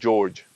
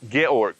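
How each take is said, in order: First: The name is said with English pronunciation. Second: The name is said with German pronunciation. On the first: "we we call him George" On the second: "correct pronunciation is actually Georg"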